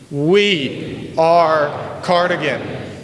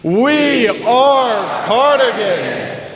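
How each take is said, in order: First: It is said a little louder. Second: It is said as loudly as possible.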